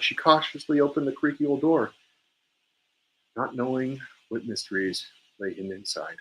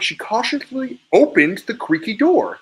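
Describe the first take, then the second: First: Sadness sinking in after a pause, second half hushed; sad, with pause. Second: Mad at the action, high and louder, OPENED punched; staccato anger with a raised voice, leaning hard on "opened"; angry. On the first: Coach shows students the sentence read as grief, sad. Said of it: "so maybe even a pause right before then". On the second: Coach shows students an angry reading of the practice sentence, angry. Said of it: "I'm mad at the action, so I'm emphasizing the action. I'm doing it with a little bit more volume". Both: Shown as a demonstration.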